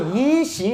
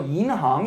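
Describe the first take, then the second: First: The second syllable is pronounced xing. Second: The second syllable is pronounced hang. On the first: The speaker calls it wrong. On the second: The speaker calls it right.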